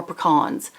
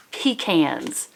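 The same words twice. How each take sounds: First: "pecans" as puh-KAHNS; puh-KAHNS pronunciation. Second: "pecans" as PEE-cans, like peas in a can; PEE-cans pronunciation. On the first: Vlogger offering viewers the other way, "pecans" as puh-KAHNS. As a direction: say "pecans" with a weak first syllable and stressed ah. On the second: Vlogger offering viewers one way to say it, "pecans" as PEE-cans. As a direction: say "pecans" with a long ee, then "cans". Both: Shown as a demonstration. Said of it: "How do you say it?".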